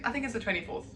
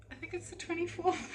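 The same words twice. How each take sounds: First: Said in the usual way. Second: Lifted, sing-song musing on the date; dreamy musing. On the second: Real, not acted. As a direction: float the date up high, unsure. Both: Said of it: "Anyways, it's the twenty something".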